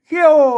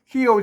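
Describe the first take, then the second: First: The syllable is said with a falling tone. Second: The syllable is said with a low tone. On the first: "เขี้ยวเสียงโท" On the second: "เขียวเสียงเอก"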